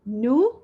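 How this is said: It is said in an American accent. "هذه American accent"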